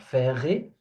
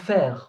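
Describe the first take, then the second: First: A vowel sound is added after the final r. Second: The word stops on the r, no final vowel. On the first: The speaker calls it wrong. "or faire" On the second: The speaker calls it right. "I'm saying faire. There is no e sound"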